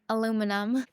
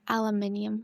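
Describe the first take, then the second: First: It is said with an American pronunciation. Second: It is said with a New Zealand pronunciation. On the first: This is how the speaker says it. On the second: This is how people say it locally.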